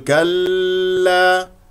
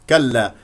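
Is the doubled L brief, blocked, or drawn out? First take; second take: blocked; brief. First: The doubled L is held and blocked. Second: The doubled L flows briefly. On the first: The speaker calls it wrong. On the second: The speaker calls it right.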